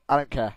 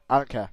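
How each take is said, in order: Both takes have the same delivery.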